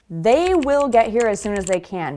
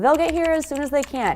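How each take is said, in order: First: The word will is said in full. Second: Will shrinks to a tiny l on they.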